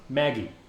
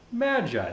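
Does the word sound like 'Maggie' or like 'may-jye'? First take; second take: Maggie; may-jye. First: The word is said like the name Maggie. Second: The word is said with a long ending. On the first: This is the childhood way to say it. The speaker calls it wrong. "As a fucking kid, so stupid" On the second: This is the grown-up way to say it. The speaker calls it right. "That's how I pronounce it as an adult"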